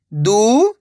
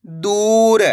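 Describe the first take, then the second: First: दू, long pause, र; दूर split slowly, rising first syllable. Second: दूर joined, long ऊ; blended word. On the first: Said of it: "एक अक्षर का उच्चारण करना है". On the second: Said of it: "तो मिलके बन जाएगा". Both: Shown as a demonstration.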